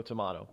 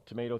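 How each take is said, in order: First: "tomato" with a broad A, to-MAH-to; quiet aside, "tomato" with an AH vowel. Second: "tomato" with a long A, to-MAY-to; quiet aside, "tomato" with an AY vowel. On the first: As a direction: say "tomato" as tuh-MAH-toh, softly. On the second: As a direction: say "tomato" as tuh-MAY-toh, softly. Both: Shown as a demonstration. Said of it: "depending on, you know, tomato, tomato".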